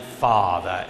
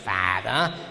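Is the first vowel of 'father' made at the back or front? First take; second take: back; front. First: The first vowel is made at the back. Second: The first vowel is not made at the back. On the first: The speaker calls it right. "hanem father, szépen rendesen hátul" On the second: The speaker calls it wrong. "és nem is father"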